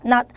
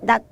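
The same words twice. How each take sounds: First: The word ends in a clipped, unreleased consonant. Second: The same.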